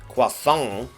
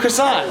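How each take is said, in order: First: It is pronounced the French way. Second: It is pronounced the anglicized English way. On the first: The speaker calls it right. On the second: The speaker calls it wrong.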